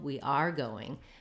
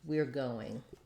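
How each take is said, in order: First: The stress falls on the word are. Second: The stress falls on the word going. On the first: It argues against someone who said otherwise. The speaker calls it wrong. "sounds like I'm saying, no, we are going" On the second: A plain, neutral statement of plans. The speaker calls it right. "going is going to be the stressed word in this phrase"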